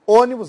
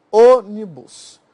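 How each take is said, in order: First: Said in the usual way. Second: "Ônibus" drawn out slowly, first syllable loud; stress on first syllable. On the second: Shown as a demonstration. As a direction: hit the Ô of "Ônibus" hard, then stretch each syllable. (sílaba tônica de "Ônibus" forte e alongada) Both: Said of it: "daqui é uma proparoxítona".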